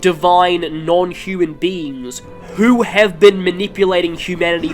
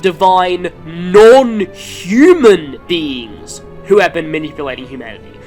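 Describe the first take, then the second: First: The stress falls on the word manipulating. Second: The stress falls on the word non-human. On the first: The beings are bad because they manipulate people. "The emphasis here is on the manipulation of humanity" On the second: The beings are bad because they are not human. "the emphasis was simply on the fact they weren't human"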